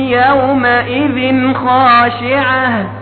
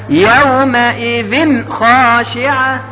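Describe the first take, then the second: Both takes have the same delivery.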